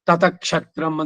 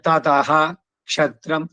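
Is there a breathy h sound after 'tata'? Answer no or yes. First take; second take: no; yes. First: The first word ends without an h sound. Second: A breathy h sound ends the first word. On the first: The speaker calls it wrong. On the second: The speaker calls it right.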